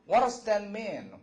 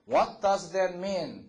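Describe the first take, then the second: First: The question is spoken quickly. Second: The question is spoken slowly. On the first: "빨리 말하면" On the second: "천천히 말하면"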